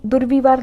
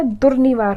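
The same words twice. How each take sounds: First: दुर्विवार with middle 'vi'; wrong form. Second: दुर्निवार with middle 'ni'; correct form. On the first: Teacher repeating the wrong word, 'vi' in दुर्विवार. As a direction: put a v after r in दुर्विवार. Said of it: "दुर्विवार नहीं होता है". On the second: Teacher repeating the right word, 'ni' in दुर्निवार. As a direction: put an n after r in दुर्निवार. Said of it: "दुर्निवार होता है". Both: Shown as a demonstration.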